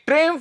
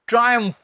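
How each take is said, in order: First: It is said as two syllables, 'trimf'. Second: It is said as 'try-umph', with an 'eye' vowel. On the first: The speaker calls it wrong. "ट्रिम्फ नहीं मेरे भाई" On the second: The speaker calls it right. "इसका उच्चारण होता है ट्रायम्फ"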